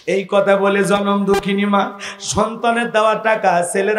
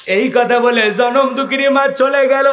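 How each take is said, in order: First: Said in the usual way. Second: Rising lament. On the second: A narrator's reading. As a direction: build the line into a cry of grief.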